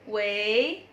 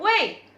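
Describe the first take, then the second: First: It rises and sounds friendly. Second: It falls sharply and sounds fierce.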